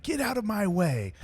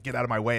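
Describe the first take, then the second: First: Actor's line reading. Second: Lightly imitated British accent; a touch of British on the line. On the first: Retold or imitated. An actor trying a line in the car, high acted reading. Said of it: "an actor reading a line". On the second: Retelling Statham's line to the actor, light British accent. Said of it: "his British accent".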